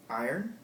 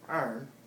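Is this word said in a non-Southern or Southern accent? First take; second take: non-Southern; Southern. First: Said in a non-Southern accent. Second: Said in a general Southern accent. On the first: "how I say them" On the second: "with the general Southern accent"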